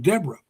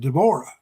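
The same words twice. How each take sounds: First: The name has an American English pronunciation. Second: The name has a Filipino English pronunciation. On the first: "would be pronounced here as Deborah" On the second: "she pronounces it as Deborah"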